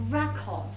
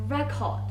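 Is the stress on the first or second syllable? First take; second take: first; first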